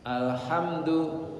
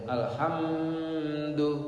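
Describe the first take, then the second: First: The m is short and clear, no hum. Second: The m is held with a nasal hum. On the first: The speaker calls it right. "mimnya jelas" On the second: The speaker calls it wrong. "enggak boleh alhamdu, dengung"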